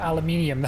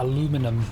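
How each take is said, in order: First: It is said with five syllables, ending '-nium'. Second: It is said with four syllables, ending '-num'. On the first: The speaker calls it right. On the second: The speaker calls it wrong.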